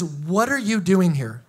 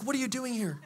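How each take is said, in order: First: Slow, firm question from God; God asking plainly. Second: Softer, hushed question from God; God's gentle voice. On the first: God confronts the sulking Elijah, slow and firm. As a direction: ask it slowly and squarely. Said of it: "And God says". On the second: God gently questions the sulker, soft and hushed. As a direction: ask it softly, as God calling in the cave. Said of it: "God's like". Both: Retold or imitated.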